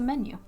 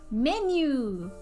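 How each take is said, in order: First: It is said with an ordinary English pronunciation. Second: It is said with a Japanese-style pronunciation.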